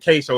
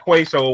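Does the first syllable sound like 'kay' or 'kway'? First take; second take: kay; kway. First: The first syllable sounds like 'kay'. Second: The first syllable sounds like 'kway'. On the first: The speaker calls it right. "Now I found out they were queso" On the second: The speaker calls it wrong. "that's how I was pronouncing it first, Quay"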